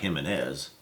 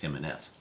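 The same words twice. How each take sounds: First: The word begins with a hard J sound. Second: The word begins with a breathy H sound. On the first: The speaker calls it wrong. "It looks like Jimenez" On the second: The speaker calls it right. "Correct pronunciation is Jimenez"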